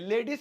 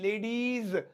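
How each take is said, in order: First: The word ends short, without a drawn-out ending. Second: The word ends with a drawn-out buzzing z sound. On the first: The speaker calls it wrong. "नहीं" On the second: The speaker calls it right. "खींच के"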